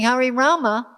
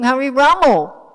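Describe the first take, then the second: First: The final word ends with an 'a' sound. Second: The final word ends with an 'o' sound. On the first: The speaker calls it right. "They weren't singing Hari Rama" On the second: The speaker calls it wrong. "they were singing Hari Ramo"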